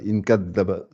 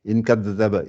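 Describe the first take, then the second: The two takes are said the same way.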